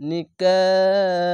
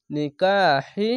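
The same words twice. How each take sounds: First: নিকাহ held very long, closing on a vowelless h; three-count stretch. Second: নিকাহি with the final hi sounded; full final vowel. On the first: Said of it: "তিন আলিফ টেনে পড়বেন". (নিকাহ তিন আলিফ টেনে, শেষে সাকিন) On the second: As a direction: slowly voice every syllable of নিকাহি. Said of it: "শেষ অক্ষরে হি না বলে". (নিকাহি-র শেষে হি উচ্চারণ করে) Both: Shown as a demonstration.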